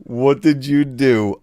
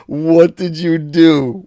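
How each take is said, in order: First: Said in the usual way. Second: Loud slow disbelief; stunned by a generous gift; surprised. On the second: Real, not acted. Second big super chat.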